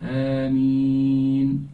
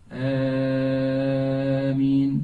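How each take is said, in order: First: The first vowel is short, the ee long. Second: The first vowel is drawn out long. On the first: The speaker calls it right. "two harakat only. The first and then four for the ya" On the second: The speaker calls it wrong. "it is not Ameen. That's not the right way"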